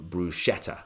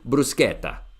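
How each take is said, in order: First: It is pronounced with English sounds. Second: It is pronounced with Italian sounds. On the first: The speaker calls it wrong. "here in the U K, uh, people pronounce it as" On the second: The speaker calls it right. "in Italian would be bruschetta"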